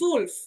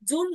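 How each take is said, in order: First: The word begins with an s sound. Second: The word begins with a j sound. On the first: The speaker calls it right. "দেখেন, সুলফ" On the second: The speaker calls it wrong. "জুল নয়"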